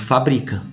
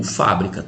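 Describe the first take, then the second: First: "fabrica" with stress on BRI; stress on second syllable. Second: "fábrica" with stress on FÁ; stress on first syllable. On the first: Teacher reading it as written without accent, "fabrica" stressed on BRI. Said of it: "Tá escrito fabrica". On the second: Teacher showing what the accent mark does, "fábrica" stressed on FÁ. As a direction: land on FÁ in "fábrica". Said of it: "se eu colocar o acento". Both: Shown as a demonstration.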